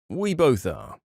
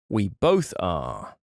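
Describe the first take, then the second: First: It is said in a neutral, polite tone. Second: It is said in a firmer, stern tone.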